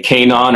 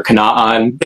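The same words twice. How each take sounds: First: "Kanon" said KAY-non, long A up front; first-syllable KAY. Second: "Kanaan" said kuh-NAHN, short unstressed start; second-syllable stress. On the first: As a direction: say "Kanon" with a stressed KAY opening. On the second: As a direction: say "Kanaan" with a reduced first syllable, open AH after. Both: Shown as a demonstration. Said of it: "either say Kanon or Kanaan".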